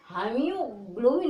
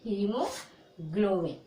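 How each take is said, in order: First: The first syllable sounds like 'high'. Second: The first syllable sounds like 'hee'. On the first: The speaker calls it wrong. "हमने हाइमियोग्लोबिन नहीं पढ़ा है" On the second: The speaker calls it right. "क्या लिखा है"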